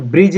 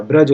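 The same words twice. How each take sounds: First: ब्रिज said "brij", with short i; faulty "brij" held up for correction; wrong i vowel. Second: ब्रज said "braj", with short a; correct a vowel. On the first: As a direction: say ब्रिज with an i after br. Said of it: "ब्रिज नहीं होता". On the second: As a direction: say ब्रज with no i sound. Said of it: "ब्रज होता है". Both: Shown as a demonstration.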